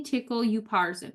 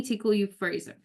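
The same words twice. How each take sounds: First: Upharsin said "you-PAR-zin"; one pronunciation. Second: Upharsin said "you-FRAY-zin"; other pronunciation. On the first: Preacher reads the writing on the wall, upharsin as "you-PAR-zin". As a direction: say upharsin with a PAR middle syllable. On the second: Preacher rereads the writing on the wall, upharsin as "you-FRAY-zin". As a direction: say upharsin with a FRAY middle syllable. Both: Shown as a demonstration. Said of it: "I've heard it pronounced either way".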